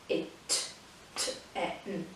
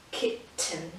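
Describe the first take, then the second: First: Whispered K-it-t-e-n, each piece slow and separate; soft, slow syllable split; broken into syllables. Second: Said in the usual way. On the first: Shown as a demonstration. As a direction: stretch K-it-t-e-n out in parts. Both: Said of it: "that's where we break it up".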